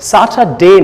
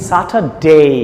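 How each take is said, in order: First: The final vowel is a plain single e. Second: The final vowel glides from e to i. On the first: The speaker calls it wrong. "স্যাটারডে না" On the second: The speaker calls it right. "এ না এই"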